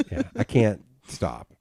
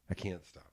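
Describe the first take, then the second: First: Said in the usual way. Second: Soft muttered admission. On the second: Real, not acted. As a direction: mutter it almost to yourself.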